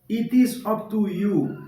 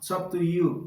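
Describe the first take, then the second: First: The word 'is' is said in full. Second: The word 'is' is contracted onto 'it'.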